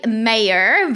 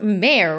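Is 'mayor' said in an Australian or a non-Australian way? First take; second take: non-Australian; Australian. First: It is said the way most countries say it. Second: It is said the Australian way.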